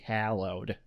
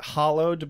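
First: The word is said with an American-style pronunciation. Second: The word is said with a British-style pronunciation. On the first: "Since we're Americans, we have to say hallowed" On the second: "that would be more of a British pronunciation"

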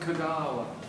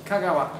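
First: One vowel is drawn out long. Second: The vowels are kept short. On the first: The speaker calls it wrong. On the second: The speaker calls it right. "Japanese vowels are never long"

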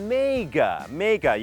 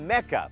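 First: The word sounds like mega, meaning huge. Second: The word sounds like the city name Mecca. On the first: It means great or huge. The speaker calls it right. "mega นั้นออกเสียงว่า mega" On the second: It names the city in Saudi Arabia. The speaker calls it wrong. "ไม่ได้ออกเสียงว่า mecca เพราะ mecca ก็จะเป็นกรุงเมกะในประเทศซาอุดิอาระเบีย"

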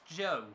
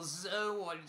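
First: The name begins with a j sound, rhyming with go. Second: The name begins with a z sound, two syllables. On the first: The speaker calls it right. "I've heard the guy in fifth is pronounced Joe" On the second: The speaker calls it wrong. "or Zoe"

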